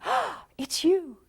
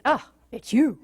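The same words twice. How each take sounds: First: Slow, high delighted greeting; light up at them; thrilled early-love greeting. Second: Flat, weary greeting; fed up oh it's you; bored. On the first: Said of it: "in the beginning". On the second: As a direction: sigh it out, unimpressed. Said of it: "And eventually it's". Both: Retold or imitated.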